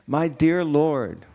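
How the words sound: It is said seriously, with real meaning.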